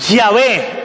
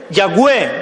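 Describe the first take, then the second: First: The middle consonant is a V sound. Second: The middle consonant is a W sound. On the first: "más se da a entender que era una V que una W. Entonces se forma la palabra Yahvé" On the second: "muchos pronuncian Yahweh o Yahweh, Yahweh más bien. ¿Han oído a alguien pronunciarlo así? Porque muchos afirman que era una W"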